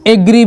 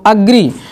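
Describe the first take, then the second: First: The first vowel is an 'e' sound. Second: The first vowel is an open 'a' sound. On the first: "इसे एग्री भी पढ़ा जाता है" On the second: "तो भी आप आ पढ़ोगे ए को"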